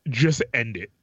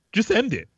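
First: Said in the usual way. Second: Just end it pushed higher and harder; emphatic repeat. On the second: Retold or imitated. To a friend, insisting they just end it.

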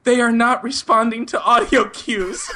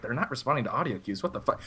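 First: High, slow, over-formal caller; mock-panicked stilted report, close to laughing; nervous high voice. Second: Imitating an operator's quiet disbelief; soft, retold bewildered aside; baffled operator. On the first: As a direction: imitate yourself panicking, pitched up and deliberate. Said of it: "ten octaves higher than it normally is". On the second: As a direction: drop it to a puzzled undertone. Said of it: "the woman was kinda like".

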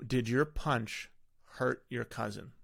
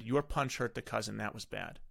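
First: "Did your punch hurt your cousin?" asked slowly, leaning on "your"; slow question form. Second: Said in the usual way. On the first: Shown as a demonstration. Parent asking son about the punch, slow and deliberate. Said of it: "so I'll say". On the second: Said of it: "I could have just said".

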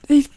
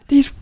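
Both takes have the same delivery.

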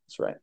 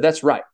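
First: Quiet echo. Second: Said in the usual way. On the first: Retold or imitated. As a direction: repeat "That's right" much softer, almost under the breath. Jesus commends Peter.

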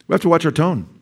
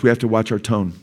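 First: "We have to watch our tone" pitched high, falling at the end; emphatic repeat. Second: Said in the usual way. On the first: Shown as a demonstration. Preacher repeating his point to the congregation, "watch our tone" raised emphatically.

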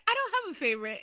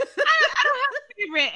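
First: High-pitched mock denial; high imitation of a mother's denial; imitated mother. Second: Very high mock denial through laughter; laughing, high-pitched put-on denial; laughing imitation. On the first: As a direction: quote the mother in a high, put-on voice. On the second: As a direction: imitate the mother, cracking up in a high voice. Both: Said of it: "she's like".

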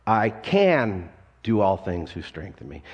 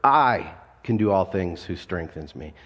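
First: "can" carries the weight, "I" stays light; stress on CAN. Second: "I" leaned on at the start, lower and steady; stress on I. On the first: Pastor moves the emphasis to the next word, "can". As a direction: punch "can" and keep the rest even. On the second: Pastor shows the church how to stress each word, "I" first. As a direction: hit the word "I", let the rest ride. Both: Shown as a demonstration. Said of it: "you emphasize each word".

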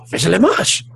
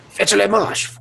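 First: Mock French, rising. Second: A dash of bad French accent; mock French. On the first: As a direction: fake French, ending on a rise. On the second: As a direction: bark the order in fake French. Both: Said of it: "That's the only French I know".

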